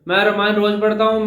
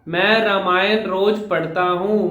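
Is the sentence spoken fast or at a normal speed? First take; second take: fast; normal. First: It is spoken fast, with reduced clarity. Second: It is spoken at a normal, clear speed. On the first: The speaker calls it wrong. "Speed ज्यादा होने की वजह से वो clarity नीचे आ गई" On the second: The speaker calls it right. "ये तो था नॉर्मल स्पीड"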